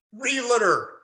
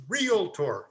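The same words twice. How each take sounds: First: Realtor said "real-i-tor" with three syllables; wrong realtor. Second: Realtor said slowly as "real-tor", two syllables; correct realtor. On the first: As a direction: Realtor pronounced ree-luh-ter, the common mistake. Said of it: "The word is not realtor". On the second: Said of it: "The word is not realtor, it's realtor". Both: Shown as a demonstration.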